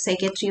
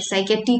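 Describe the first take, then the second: First: "साइकियाट्री" as sai-kya-tree; correct pronunciation. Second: "साइकियाट्री" with a hard T and no R, sai-ka-tee; wrong pronunciation. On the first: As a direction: say "साइकियाट्री" with the R in the last syllable. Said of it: "होते हैं". ("साइकियाट्री" के अंत में "ट्री") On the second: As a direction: mispronounce the ending of "साइकियाट्री" as plain tee. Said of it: "तो नहीं बोलते". ("साइकियाट्री" के अंत में गलत "टी") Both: Shown as a demonstration.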